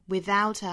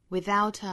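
No difference in how they are said.

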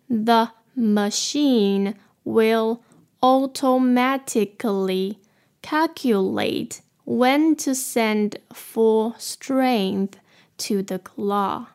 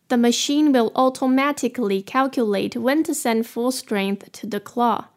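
First: It is said more slowly. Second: It is said at normal speed.

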